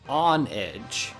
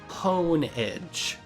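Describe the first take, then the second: First: The name begins with the word on. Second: The name begins with the word hone. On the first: The name means honor and a blade's edge. "because it's honor and the edge of a sword" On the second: The name means sharpening a blade's edge. "because you hone the edge of a sword"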